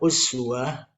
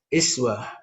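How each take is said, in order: First: The word begins with a rounded 'u' vowel. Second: The word begins with a front 'i' vowel. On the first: Following the Prophet totally. "ketika kita baca uswah" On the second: Following the Prophet in only one aspect. "menggunakan uh, tanda kasrah di bawah"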